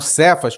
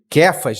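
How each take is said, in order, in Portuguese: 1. O nome começa com som de s. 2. O nome começa com som de k. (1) "E não Cefas, como está escrito" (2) "essa pronúncia aqui, tá? De, de Kéfas"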